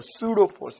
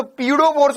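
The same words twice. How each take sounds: First: "सूडो फोर्स" starting on an S sound; silent P. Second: "पीडो फोर्स" opening with a spoken P; P wrongly sounded. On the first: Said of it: "तो एस से बोलेंगे". ("सूडो फोर्स", प silent, स से शुरू) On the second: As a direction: say "पीडो फोर्स" as if P weren't silent. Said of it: "पी, पी silent है इसमें". ("पीडो फोर्स", प का गलत उच्चारण) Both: Shown as a demonstration.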